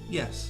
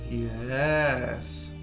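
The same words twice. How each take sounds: First: It is said flatly and plainly. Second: It is said in a sarcastic tone. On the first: The answer really is yes. "You can say it quite flat, as if you mean yes" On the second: The answer actually means no. "You can say it sarcastically"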